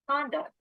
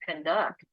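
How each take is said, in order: First: The stress is on the first syllable. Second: The stress is on the second syllable. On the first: It is used as a noun. "if it's a noun, it's going to be first syllable stress" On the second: It is used as a verb. "If it's a verb, it's going to be second syllable stress"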